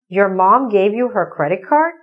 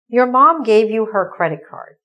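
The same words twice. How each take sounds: First: It is said with doubtful questioning intonation. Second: It is said with plain statement intonation. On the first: "Change your intonation. ... there's doubt in my voice" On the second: "That's the sentence"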